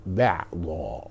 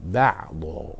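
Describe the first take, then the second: First: بعضا lower and falling, classical ending; pronounced bəʕdā. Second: بعضا low with final o sound; pronounced baʕdo. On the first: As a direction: say بعضا with clear final a, low and slow. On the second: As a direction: say بعضا ending in o, deep and steady. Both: Shown as a demonstration. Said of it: "هكذا نطقها".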